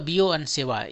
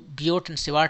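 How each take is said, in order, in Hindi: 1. दोनों नामों के अंत की t ध्वनियाँ मौन हैं। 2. दोनों नामों के अंत की t ध्वनियाँ उच्चारित होती हैं। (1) "इसको लोग बियो सेवा पढ़ते हैं।" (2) "इसको बियोट एंड सेवाट आप पढ़ सकते हो"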